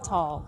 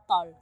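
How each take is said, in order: First: It is said with an American accent. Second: It is said with a Filipino accent. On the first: "when I say tall with an American accent" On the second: "if I say it with a Filipino accent"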